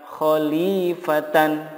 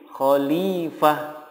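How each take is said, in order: First: The word ends in t, a, and n. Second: The word ends in a soft h sound. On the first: The reader continues without stopping. "Begitupun kata khalifatan" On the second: The reader stops on this word. "jika wakof menjadi khalifah"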